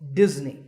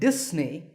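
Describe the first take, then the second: First: The middle consonant is a buzzing Z sound. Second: The middle consonant is a hissing S sound. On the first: The speaker calls it right. "The S in the middle is actually a Z sound" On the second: The speaker calls it wrong. "If you said Disney, that's the mistake"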